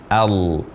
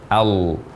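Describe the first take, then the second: No difference in how they are said.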